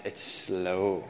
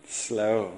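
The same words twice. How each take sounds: First: Slow dropped low and soft; "slow" said heavy and drawn; stress on slow. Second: "Slow." alone, falling; a solemn falling "Slow."; repeated for weight. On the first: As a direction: lean on "slow", low and quiet. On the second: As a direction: land "Slow." as a heavy one-word echo. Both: Shown as a demonstration.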